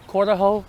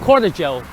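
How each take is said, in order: First: The middle consonant is an 'h' sound. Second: The middle consonant is an English 'j' sound. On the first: The speaker calls it right. "if there's a J, I think it H" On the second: The speaker calls it wrong. "here I think I pronounced it wrong"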